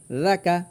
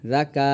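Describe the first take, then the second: First: "রাকা" with both vowels short; two short even syllables in "রাকা"; no stretch. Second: "রাকা" with the final "কা" drawn long; short first syllable, long "কা" in "রাকা"; wrongly stretched. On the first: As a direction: end "রাকা" promptly, no lengthened "কা". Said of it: "কাতেও কোনো টান নেই". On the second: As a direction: drag out the last vowel of "রাকা". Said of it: "এই কাতে আমরা টান দিই". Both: Shown as a demonstration.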